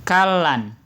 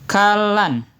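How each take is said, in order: The two takes are said the same way.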